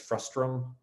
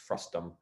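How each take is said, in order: First: An extra r sound follows the t. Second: No r sound follows the t. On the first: The speaker calls it wrong. "often mispronounced even by myself very regularly as frustrum" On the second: The speaker calls it right. "but it's not, it's frustum"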